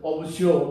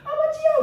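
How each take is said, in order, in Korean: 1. 목소리를 변조해서 더 낮고 거칠게 들립니다. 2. 목소리가 높고 부드러워서, 거의 여성의 목소리 같습니다. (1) "최대한 애써인 것처럼" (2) "그냥 자기 목소리면 여성 같은 목소리였을 겁니다"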